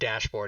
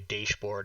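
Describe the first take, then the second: First: The word is said in a relaxed, ordinary way. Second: Every sound of the word is carefully pronounced. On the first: This is the usual way to say it. "instead of dashboard" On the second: Someone else said it this way. "who pronounced all his words"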